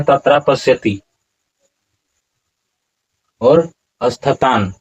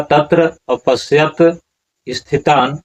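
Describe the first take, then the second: First: "तत्रा पश्यति" with a long final "आ" on तत्रा and "पश्यति" ending in "इ", slow; wrong pronunciation. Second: "तत्र अपश्यत" said slowly, short final अ on तत्र, "अपश्यत" with no final इ; correct pronunciation. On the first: Teacher shows the wrong way: "तत्रा पश्यति", long आ. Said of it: "इस तरह से उच्चारण नहीं होता है". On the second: Teacher shows the correct reading: slow "तत्र अपश्यत". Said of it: "तत्र उच्चारण क्या होगा". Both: Shown as a demonstration.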